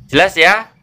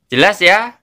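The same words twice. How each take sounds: No difference in how they are said.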